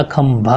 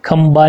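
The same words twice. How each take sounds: First: "खंभा" slowly, with aspirated bh; correct pronunciation. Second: "खंबा" with an unaspirated b; wrong pronunciation. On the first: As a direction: lean slowly on the bha in "खंभा". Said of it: "खंभा होता है". ("खंभा" में भ, सही उच्चारण) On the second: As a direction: say "खंबा" as kham-ba. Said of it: "खंबा नहीं होता". ("खंबा" में ब, गलत उच्चारण) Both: Shown as a demonstration.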